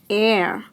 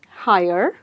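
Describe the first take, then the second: First: The word begins with a vowel sound. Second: The word begins with an h sound. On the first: The speaker calls it right. "this word is pronounced simply as air" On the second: The speaker calls it wrong. "How do you pronounce this one?"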